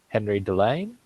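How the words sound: The name is said with an English accent.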